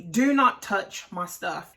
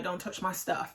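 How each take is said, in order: First: "not" stressed, each word set apart; slow, firm "Do not", landing on "not"; emphatic warning. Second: Quick, soft quote of "Don't touch my stuff"; understated warning. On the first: Restating Harvey's warning emphatically. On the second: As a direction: toss off the warning quietly, run together. Quoting Harvey's warning, first take. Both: Retold or imitated.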